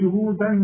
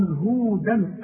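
First: "هودا" ending on a plain long a; correct take. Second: "هودا" recited wrongly with a nasal ending; wrong take. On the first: Teacher showing the correct ending of "هودا". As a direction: finish "هودا" on a clean long a. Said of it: "ما أقولش". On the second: Teacher showing the wrong ending of "هودا". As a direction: say "هودا" the way you should not. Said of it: "إذا هنا مش هقول". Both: Shown as a demonstration.

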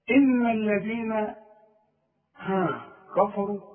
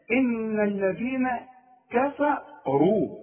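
First: كفروا said with a thick, heavy كا, like كفا; wrong heavy kaf. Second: Slow, careful كفروا with a thin kaf and only the ra heavy; correct recitation. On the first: Teacher mimicking a student's mistake: كفروا with a heavy kaf. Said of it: "غلط". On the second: Teacher giving the model recitation of كفروا, slow. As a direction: recite كفروا slowly, each letter given its due. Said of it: "الراء هي اللي عندي المفخمة فقط". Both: Shown as a demonstration.

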